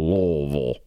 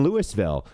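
First: The name is slurred as if mouth were full. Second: Every syllable of the name is said clearly. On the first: The speaker is a local. The speaker calls it right. "you have to say it with like you have rocks or marbles in your mouth" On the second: The speaker is an outsider. The speaker calls it wrong. "they'll laugh at you, and they'll be like, you're definitely not from here"

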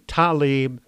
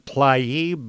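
First: The name starts with a 'tal' syllable. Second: The name starts with a 'tl' consonant cluster. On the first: "pronounced like T-A-L-I-B" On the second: "spelled T-L-A-I-B, so I keep saying Tlaib"

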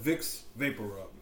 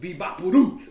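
First: It is said the standard American way. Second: It is said with a Spanish-speaking twang.

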